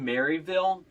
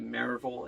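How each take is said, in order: First: The name is said fully, syllable by syllable. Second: The name is said clipped and run together. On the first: This is how the name looks written. "it's written Maryville" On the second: This is how the locals say the name. "but it's enunciated Maryville"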